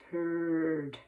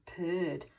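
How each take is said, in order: First: "purred" drawn out low like a cat; purring. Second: Said in the usual way. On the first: Shown as a demonstration. Teacher reading with children, purring like a cat. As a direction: roll the word out low and long. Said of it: "in a meowing and purring sort of way".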